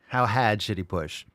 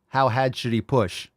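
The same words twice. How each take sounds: First: It is said in a Boston accent, dropping the r. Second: It is said in a Boston accent, dropping the r.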